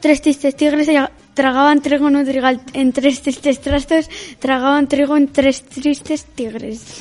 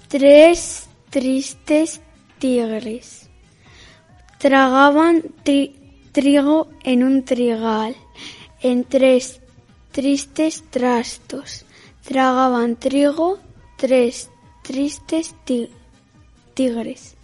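First: It is said fast. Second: It is said slowly.

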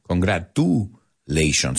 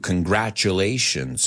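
First: The middle 'tu' is said without a 'ch' sound. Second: The middle 'tu' is said with a 'ch' sound. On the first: The speaker calls it wrong. "It's not congratulations. I've heard that mistake many times" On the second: The speaker calls it right. "we love that T-U, future nature"

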